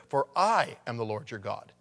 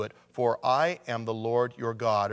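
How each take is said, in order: First: I said with extra weight, the rest reads on; stress on I. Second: Said in the usual way. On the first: Shown as a demonstration. Preacher rereads the verse to stress I. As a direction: lean on the word I in "For I am the Lord your God". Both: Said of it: "Or I'll put the emphasis there".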